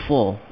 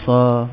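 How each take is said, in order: First: "Sa" rounded toward "so", tongue raised; emphatic sad with a long hissed s; high, heavy SA. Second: Thin, open "sa"; "sa" like a plain s and a; light SA without elevation. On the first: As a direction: make "Sa" full and elevated. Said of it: "disebut dengan tinggi". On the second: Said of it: "kalau tak ada sifat tu". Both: Shown as a demonstration.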